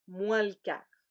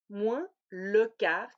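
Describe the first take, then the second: First: The vowel of le is dropped. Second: The vowel of le is pronounced.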